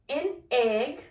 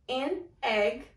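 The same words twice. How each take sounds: Both takes have the same delivery.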